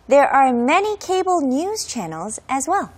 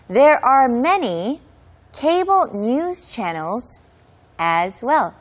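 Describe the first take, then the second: First: The sentence is said a bit faster. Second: The sentence is said at a normal pace.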